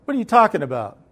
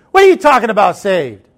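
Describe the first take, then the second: First: Raised-pitch, mildly indignant question; puzzled challenge. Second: Loud, high indignant outburst; imitated mad grandma. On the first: Retold or imitated. Grandma baffled by talk of heaven, mildly challenging. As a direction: ask it as a bewildered grandma, not yet angry. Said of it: "she goes". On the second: Grandma angered at being asked if saved, indignant imitation. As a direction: snap it back, offended, dropping on the last word. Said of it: "she got mad then".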